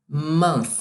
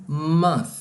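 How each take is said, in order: The two takes are said the same way.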